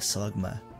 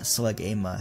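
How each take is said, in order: First: The name is said with two syllables. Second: The name is said with three syllables. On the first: The speaker calls it right. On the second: The speaker calls it wrong. "Not Slugama"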